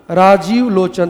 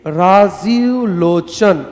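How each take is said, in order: First: Said in the usual way. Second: Rajiv Lochan very slowly, each syllable stretched. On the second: Shown as a demonstration. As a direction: drag out Rajiv Lochan as if dictating. (Rajiv Lochan बहुत धीरे, खींचकर बोलें) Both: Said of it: "देखिए".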